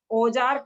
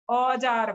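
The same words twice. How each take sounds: First: औजार said with a plain ओ sound; wrong form. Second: औजार with a clear open औ; correct form. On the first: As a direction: show the mistaken ओ in औजार. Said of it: "कभी नहीं बोलते हैं।". (औजार को ओ की तरह ग़लत बोलना) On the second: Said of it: "औजार बोलते हैं". (औजार को खुले औ के साथ) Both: Shown as a demonstration.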